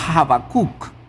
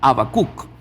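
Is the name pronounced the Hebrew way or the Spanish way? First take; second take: Hebrew; Spanish. First: The name has its original Hebrew pronunciation. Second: The name has its usual Spanish pronunciation.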